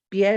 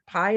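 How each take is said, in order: First: PIE as "pyeh"; Spanish pronunciation. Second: PIE as "pye", rhyming with my; English pronunciation. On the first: Teacher contrasts the two meanings, Spanish pronunciation. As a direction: say "pie" as the Spanish word for foot. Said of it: "but in Spanish". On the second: Teacher contrasts the two meanings, English pronunciation. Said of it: "Pie is a dessert". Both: Shown as a demonstration.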